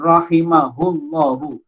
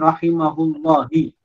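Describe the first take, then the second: First: The word ends with a u vowel. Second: The word ends with an i vowel. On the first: The speaker calls it right. "dibaca dengan rahimahullahu" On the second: The speaker calls it wrong.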